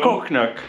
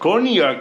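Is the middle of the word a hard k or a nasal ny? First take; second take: hard k; nasal ny. First: The middle is a hard k then n. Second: The middle is a soft nasal ny sound. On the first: The speaker calls it wrong. "nicht Cocknack" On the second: The speaker calls it right. "Also, Cognac"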